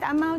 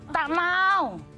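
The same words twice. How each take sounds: First: It is said softly and gently. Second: It is said firmly and sternly. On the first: The speaker calls it wrong. "Jangan lembut-lembut kan" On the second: The speaker calls it right. "Dengan nada yang tegas"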